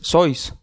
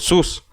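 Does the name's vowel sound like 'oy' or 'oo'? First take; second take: oy; oo. First: The vowel is an 'oy' diphthong. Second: The vowel is a plain 'oo' sound. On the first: This is the original German pronunciation. "¿por qué dices sois?" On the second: This is the commonly accepted pronunciation. "Siempre lo he escuchado pronunciado sus"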